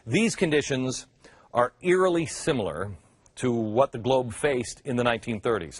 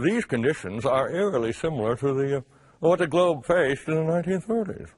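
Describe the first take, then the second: First: It is spoken in the speaker's ordinary accent. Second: It is spoken in a put-on English accent.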